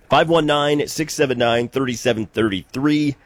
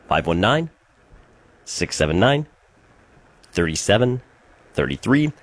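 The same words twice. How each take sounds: First: The number is said at a quicker pace. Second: The number is said at a slower pace.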